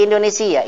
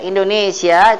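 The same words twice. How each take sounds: First: "Indonesia" said as Indunisiyyah; Arabic-style in-du-ni-SIY-yah for "Indonesia"; Arabic language-name form. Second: Said in the usual way. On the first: Shown as a demonstration. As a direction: end "Indonesia" on a long, doubled -siyyah. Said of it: "kalau bahasa nanti jadi". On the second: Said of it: "itu negaranya".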